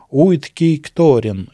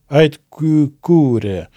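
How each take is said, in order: First: It begins with 'oo-ee' and keeps every letter. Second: It begins with 'eye' and ends in 'kuh-koo-reh'. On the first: "Я сейчас произнес, но вообще как-то по-другому звучало" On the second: "звучало как-то что-то типа Айткюкуре"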